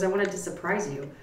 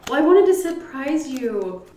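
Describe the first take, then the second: First: Said in the usual way. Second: High, louder quoted mother; imitated gleeful mother. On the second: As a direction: play mom gleefully owning up to the surprise. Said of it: "she was laughing so hard".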